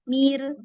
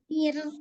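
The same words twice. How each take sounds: First: The syllable is said with a lowered pitch. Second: The syllable is said with a raised pitch. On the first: The speaker calls it wrong. "jangan diturun" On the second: The speaker calls it right.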